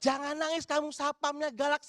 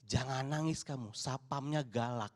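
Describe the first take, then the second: First: Higher, louder, outraged retelling; quoting the mother's slander with indignation; indignant requote. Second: Lower, slow mock scolding of a child; lightly voiced mother shushing her child; imitating a mother. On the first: Retold or imitated. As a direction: throw the slander back in disbelief. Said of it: "saya diem gitu loh". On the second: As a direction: hush the kid like a stern mum. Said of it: "ibu-ibunya bilang".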